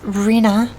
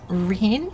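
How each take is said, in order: First: The name is said as Rena, settled. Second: The name is said as Reen, rising. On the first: The speaker calls it right. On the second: The speaker calls it wrong.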